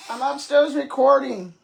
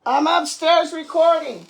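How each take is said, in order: First: Loud call to another room; yelling across the room. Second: Louder repeat, punching "upstairs"; yelling across the room. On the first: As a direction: shout it up from upstairs. Calling to someone downstairs. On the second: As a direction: yell it again, leaning on "upstairs". Calls again, louder, stressing upstairs. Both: Real, not acted.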